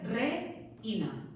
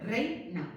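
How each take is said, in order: First: Reina broken between E and I; reina wrongly split, re-ina. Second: Reina broken after the whole diphthong; reina split rei-na. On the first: Teacher showing a forbidden line break, reina split re-ina. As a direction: pause after re, then ina. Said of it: "no podría hacer reina". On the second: Teacher showing the correct line break, reina split rei-na. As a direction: keep rei together, pause, then na. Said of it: "tendría que hacer reina". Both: Shown as a demonstration.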